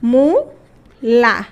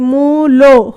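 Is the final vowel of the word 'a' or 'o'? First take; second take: a; o. First: The word ends in an open 'a' vowel. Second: The word ends in a closer 'o' vowel. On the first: "একটা হলো উ আর একটা হলো আ অনেক দূরে" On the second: "তাহলে উ ও একটু কাছে"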